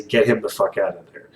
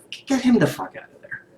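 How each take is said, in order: First: Said in the usual way. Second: Higher, fed-up repeat; exasperated demand again, voice pitched up; exasperated outburst. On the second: Real, not acted.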